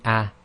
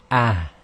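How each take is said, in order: First: Said in the usual way. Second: Ah with more breath pulled up from the chest. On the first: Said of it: "instead of just saying ah". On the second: Shown as a demonstration. Teacher correcting students, ah with chest breath. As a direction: push ah from the chest. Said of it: "you have to say ah".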